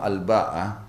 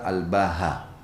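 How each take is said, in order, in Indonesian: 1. Konsonan tengahnya adalah hamzah. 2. Konsonan tengahnya adalah bunyi h. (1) "dengan hamzah dan tak ta'nif" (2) "dengan huruf ha sebagai pengganti huruf hamzah"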